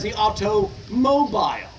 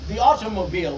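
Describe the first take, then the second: First: "automobile" with the weight thrown on "mobile"; stress on second part. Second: Said in the usual way. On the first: Shown as a demonstration. Lecturer showing the old name, "mobile" stressed in "automobile". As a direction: set "auto" apart, then lean on "mobile" in "automobile". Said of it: "stress the second word or syllable". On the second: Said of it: "Now we stress only the first part".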